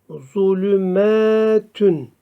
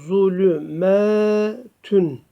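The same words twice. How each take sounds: Both takes have the same delivery.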